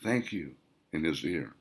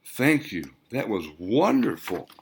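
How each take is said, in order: First: Very soft, breathy thank you whispered into his ear. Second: Said in the usual way. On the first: Acted. Melody thanking Wayne in his ear while dancing, whispered. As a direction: barely voice the words, intimate. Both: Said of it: "she whispered".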